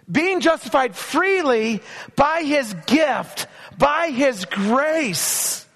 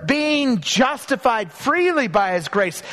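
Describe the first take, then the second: First: Slow, stretched reading, by his grace drawn out; slow emphatic scripture. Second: Being justified freely by his grace, slow with weight on freely; slow emphatic scripture. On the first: Preacher savoring the verse for the congregation. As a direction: let by his grace hang slowly. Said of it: "repeats verse slowly". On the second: Preacher lingering on freely for the congregation. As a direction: lean on the word freely, slowly. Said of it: "these words". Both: Shown as a demonstration.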